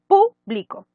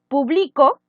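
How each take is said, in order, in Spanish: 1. El acento está en la primera sílaba. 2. El acento está en la segunda sílaba.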